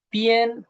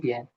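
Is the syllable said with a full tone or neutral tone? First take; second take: full; neutral. First: The syllable carries its full tone. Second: The syllable is said in a neutral tone. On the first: The word stands alone. "cuando está solita" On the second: The word is part of a compound. "se vuelve un tono neutro"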